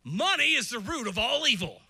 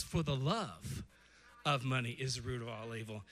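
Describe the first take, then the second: First: Loud misquote. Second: Slow, lower, each word weighed; slow correct quote. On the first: Retold or imitated. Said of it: "Let's give you a couple". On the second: Shown as a demonstration. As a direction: read the true verse slowly. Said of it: "the Bible says".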